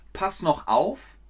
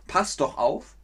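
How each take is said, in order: First: "noch" in "Pass noch auf" as the wrong form; wrong word noch. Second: "doch" in "Pass doch auf" as the right form; correct word doch. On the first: Teacher says "Pass noch auf" to show the wrong form. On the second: Teacher says "Pass doch auf" to show the right form. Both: Shown as a demonstration. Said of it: "Hört ihr den Unterschied".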